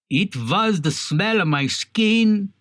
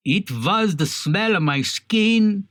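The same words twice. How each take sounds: First: It is read with a put-on Russian accent. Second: It is read with a put-on Russian accent.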